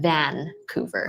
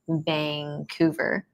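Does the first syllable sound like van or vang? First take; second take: van; vang. First: The first syllable sounds like the word van. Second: The first syllable ends in an ng sound. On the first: The speaker is not from the city. The speaker calls it wrong. "like the the driving van" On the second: The speaker is a local. The speaker calls it right. "the proper way to say Vancouver according to Vancouverites"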